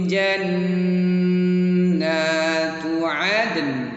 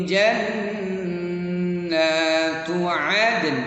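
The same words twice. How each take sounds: Both takes have the same delivery.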